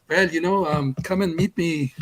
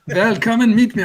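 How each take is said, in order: First: Put-on weak French accent. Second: Mock German accent, higher and louder with a laugh; laughing fake German accent. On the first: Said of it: "I'm not doing the accent right". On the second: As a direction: slide into a hammed-up German accent. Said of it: "I'm doing a German".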